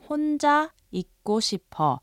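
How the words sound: The voice falls at the end as a statement. The speaker states they want to be alone. "a casual statement meaning I want to be alone"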